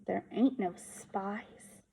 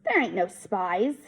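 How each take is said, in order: First: Softer, slow, mulling it over; quiet echo. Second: Said in the usual way. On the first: A narrator's reading. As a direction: let the words sink in, softly and slowly. Echoing the words to himself.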